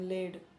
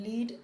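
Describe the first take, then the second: First: The vowel is a short 'e' sound. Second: The vowel is a long 'ee' sound.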